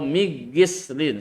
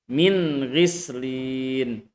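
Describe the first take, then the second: First: The n sound is dropped and merged. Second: The n sound is pronounced clearly. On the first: The speaker calls it wrong. "Jangan baca min ghis atau migislin, salah" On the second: The speaker calls it right. "nun sukunnya harus dibaca uh, jelas"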